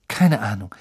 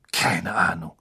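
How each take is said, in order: First: Said in the usual way. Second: "Keine Ahnung" whispered unvoiced and lower. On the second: A narrator's reading. Harry answering a question in a whisper, hushed. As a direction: breathe "Keine Ahnung" out on a hush.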